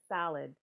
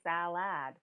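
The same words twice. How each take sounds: First: The second vowel is reduced to schwa. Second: The second vowel is said as a full vowel. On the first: The speaker calls it right. "we actually pronounce it salad" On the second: The speaker calls it wrong. "they usually say salad"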